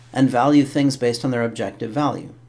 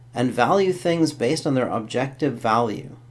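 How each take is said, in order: Both takes have the same delivery.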